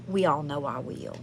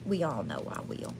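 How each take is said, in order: First: Said in the usual way. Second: Much softer and lower, under the voice; hushed aside. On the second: Real, not acted. Host admitting to viewers she will talk anyway, hushed aside. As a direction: drop it to a quiet, low aside.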